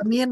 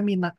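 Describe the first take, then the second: First: The word ends on the consonant n. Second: The word ends with an added a vowel. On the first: The next letter carries a vowel. "Bisa dibaca min" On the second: The next letter is silent, as with alif lam. "bisa dibaca mina"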